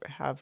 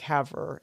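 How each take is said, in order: First: The R sound is barely pronounced. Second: The R sound is strongly pronounced. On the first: The speaker calls it right. "it's more like" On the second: The speaker calls it wrong. "too much emphasis on the R. you were saying like Havre"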